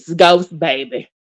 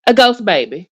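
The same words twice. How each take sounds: First: Ghost falling low, flat finality; low dismissive stress on ghost. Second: Ghost rising, mocking; stress on ghost. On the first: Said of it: "We not doing this". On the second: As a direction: lean on ghost with disbelief. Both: Shown as a demonstration.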